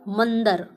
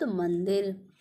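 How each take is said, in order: First: मंदिर said as "mandar", loudly; wrong pronunciation of मंदिर. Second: मंदिर with short i, "man-dir"; the corrected "mandir"; correct pronunciation of मंदिर. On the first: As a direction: drop the i from मंदिर: "man-dar". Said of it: "गलत होता है". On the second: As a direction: sound the i in मंदिर. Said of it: "हम क्या बोलते हैं शुद्ध शब्द". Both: Shown as a demonstration.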